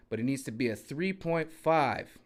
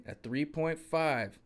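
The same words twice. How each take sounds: First: Said in the usual way. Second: A three point five said slowly, each word set apart; slow it right down so it sinks in; slow, spelled-out emphasis. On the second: Shown as a demonstration. Repeating the jack size for a distracted viewer, slow and deliberate. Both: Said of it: "Are you listening?".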